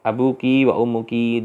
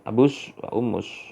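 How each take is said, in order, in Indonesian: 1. Setiap kata berakhir dengan bunyi ki. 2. Setiap kata berakhir dengan bunyi s.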